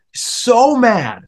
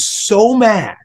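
First: Mad repeated much higher for emphasis; stress on mad. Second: Said in the usual way. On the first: Shown as a demonstration. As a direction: lift so mad up high to stress it. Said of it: "And he was so mad".

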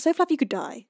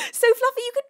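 First: Said through a laugh, relaxed. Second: High, squealed shout that cuts out; very high, loud squeal, voice failing; mock scream. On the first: Real, not acted. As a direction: give up and laugh it out. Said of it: "Um, how about". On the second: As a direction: scream it until the voice gives out. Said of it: "I lost my voice entirely screaming that".

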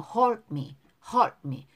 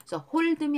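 First: "hold me" with the d nearly silent, like "hol' me"; weak d. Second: "hold me" with a full extra "deu" syllable after hold; over-pronounced d. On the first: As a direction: run "hold" into "me", swallowing the d. ("hold me"에서 드를 거의 빼고) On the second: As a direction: say "hold me" as hol-deu-mee. ("hold me"를 홀드미처럼 드를 살려서) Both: Shown as a demonstration. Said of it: "드 발음을 약하게 발음하는 거예요".

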